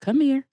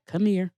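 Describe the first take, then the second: First: Weird granddad voice. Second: Low, soft creepy come-on; weird granddad voice. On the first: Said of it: "Like that". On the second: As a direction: lure her in, low and slow. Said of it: "it was his weird granddad voice". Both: Retold or imitated.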